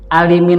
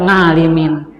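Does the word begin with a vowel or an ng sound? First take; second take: vowel; ng sound. First: The word begins with a plain vowel sound. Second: The word begins with an ng sound.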